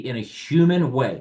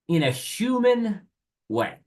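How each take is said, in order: First: No word gets special emphasis. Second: The word human is strongly emphasized.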